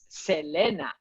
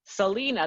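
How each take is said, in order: First: The name is said with Spanish vowels. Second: The name is said with English vowels. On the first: "But in Spanish, if you read that name, it's Selena" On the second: "that's how you say it in English"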